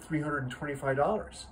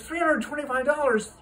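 First: Said in the usual way. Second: High, loud incredulous echo; a scandalized father repeating the price; shocked disbelief. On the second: Acted.

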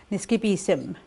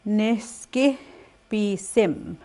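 First: Said in the usual way. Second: Slow split syllables. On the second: Shown as a demonstration.

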